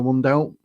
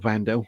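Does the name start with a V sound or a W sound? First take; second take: W; V. First: The name begins with a W sound. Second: The name begins with a V sound. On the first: The speaker calls it wrong. "I need to start pronouncing that correctly myself" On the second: The speaker calls it right. "a W's a V"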